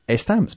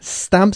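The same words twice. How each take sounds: First: The word begins with a vowel before s. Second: The word begins directly with a hissing s. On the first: The speaker calls it wrong. "y no stamps" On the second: The speaker calls it right. "Empezando con este sonido de la S. Este sonido silbado"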